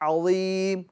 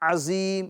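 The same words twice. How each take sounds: First: The z sound is heavy and emphatic. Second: The z sound is plain and light. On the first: The speaker calls it right. "दुरुस्त इसकी अदायगी क्या है?" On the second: The speaker calls it wrong. "ये गलत है"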